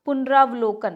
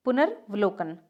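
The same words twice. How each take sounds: First: पुनरावलोकन with long "raa"; incorrect form. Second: पुनर्वलोकन without long "raa"; correct form. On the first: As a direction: say पुनरावलोकन as "punaraa-vlokan". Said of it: "नहीं". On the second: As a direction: say पुनर्वलोकन as "punar-valokan". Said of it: "रा नहीं होगा". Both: Shown as a demonstration.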